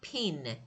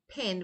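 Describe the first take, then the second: First: The vowel is said long. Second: The vowel is said short. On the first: The speaker calls it wrong. "it's not pin because this one is short" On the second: The speaker calls it right. "this one is short sound"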